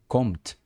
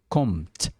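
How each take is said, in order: No difference in how they are said.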